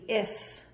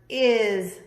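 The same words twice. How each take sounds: First: The word ends with a hissing s sound. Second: The word ends with a buzzing z sound. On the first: The speaker calls it wrong. "the S normally says S. So this word would be is. But that's not how you say it" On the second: The speaker calls it right. "This is the word is"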